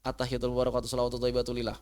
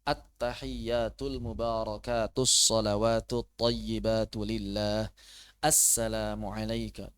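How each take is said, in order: First: Rattled off too fast; rushed wrong reading. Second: Slow, careful, every syllable given its length; slow correct reading. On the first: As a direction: rush through it the wrong way. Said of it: "Jangan sampai baca begini nih". (bacaan tahiyat terburu-buru yang salah) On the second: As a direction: read it properly, unhurried. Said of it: "Nah, begitu bacanya ya". (bacaan tahiyat pelan dan benar) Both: Shown as a demonstration.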